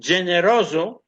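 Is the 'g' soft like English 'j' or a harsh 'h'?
j. The 'g' sounds soft, like English 'j'.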